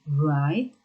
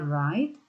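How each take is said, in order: First: The word starts with a W sound. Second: The word starts with an R sound. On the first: The speaker calls it wrong. "bukan write" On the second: The speaker calls it right. "bacanya write, W-nya abaikan, W-nya nggak usah dibaca"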